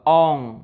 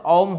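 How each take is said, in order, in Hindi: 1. यह गले में नासिक वाली ng ध्वनि से खत्म होता है। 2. इसका अंत बंद होठों से होता है, m ध्वनि। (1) "जैसे अंगूर बोलते हैं अंग" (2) "अगर होठ सटा देते तो औम हो जाएगा, वो भी नहीं करना है।"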